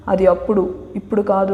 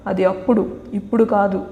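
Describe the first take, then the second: First: Understated sass; with attitude. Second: Sassy, clipped-off dismissal; a touch of sass, lightly voiced; with attitude. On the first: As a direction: say it like she owns the argument. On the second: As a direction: toss it off with attitude. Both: A narrator's reading. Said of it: "అంటూ యాటిట్యూడ్గా చెప్పగానే".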